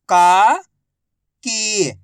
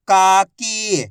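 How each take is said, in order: First: काकी split as का, long pause, की; syllable by syllable. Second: काकी joined, both vowels held; blended word. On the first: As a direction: sound out काकी slowly, का rising, की falling. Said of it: "एक अक्षर की पहचान करो, उनका उच्चारण करो". (काकी को अक्षर-अक्षर अलग बोलें) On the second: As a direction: blend का and की into काकी without a gap. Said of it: "आपस में मिला के पढ़ दो". (काकी को मिलाकर बोलें) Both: Shown as a demonstration.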